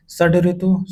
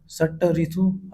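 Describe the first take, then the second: First: Said in the usual way. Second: षट ऋतु with voiceless ṭ ending the first word; षट ऋतु instead of shaḍ-ritu. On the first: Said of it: "शुद्ध है". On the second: Shown as a demonstration. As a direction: say षट with a hard t before ऋतु. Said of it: "अशुद्ध होता".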